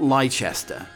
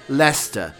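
First: Every letter is sounded, making it longer. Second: The middle letters are dropped, making it short. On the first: The speaker calls it wrong. "not Leicester" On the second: The speaker calls it right. "it's Leicester"

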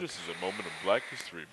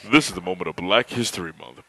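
First: It is said in a less deep, quieter voice. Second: It is said in a louder, deeper voice.

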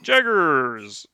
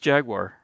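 First: The word ends in a short 'gers' syllable. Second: The word ends in a full 'war' syllable. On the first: "And they're like" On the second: "It was Jaguar"

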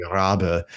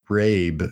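First: The name is said with a German pronunciation. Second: The name is said with an English pronunciation. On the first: "but in German, it'd be Rabe" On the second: "it's Argent Rabe"

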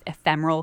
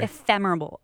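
First: The word is said without a b sound. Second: The word is said with a b sound. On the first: The speaker calls it right. "Look, there I say it right" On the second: The speaker calls it wrong. "Do you hear me? I'm putting a B in it"

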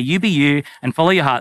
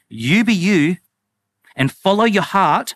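First: It is said in a plain, less sarcastic tone. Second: It is said in a mocking, sarcastic tone. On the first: The advice is reported fairly. The speaker calls it right. "that's me doing nuance" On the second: The advice is being ridiculed. The speaker calls it wrong. "Sorry, I won't do that so sarcastic"

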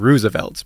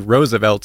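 First: The first vowel sounds like 'oo'. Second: The first vowel sounds like 'oh'. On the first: It follows common English usage. The speaker calls it wrong. "instead of Roosevelt" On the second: It follows the name's Dutch origin. The speaker calls it right. "the double O in Dutch makes the O sound, and so it should be Roosevelt"

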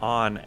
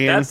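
First: The vowel sounds like the one in 'on'. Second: The vowel sounds like the one in 'Ann'.

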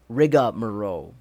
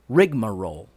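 First: An extra 'a' vowel follows the first syllable. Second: No extra vowel follows the first syllable. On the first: The speaker calls it wrong. "It's not pronounced that way. There is no A" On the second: The speaker calls it right. "It's rigmarole"

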